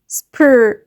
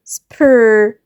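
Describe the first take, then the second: No difference in how they are said.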